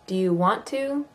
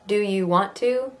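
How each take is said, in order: The two takes are said the same way.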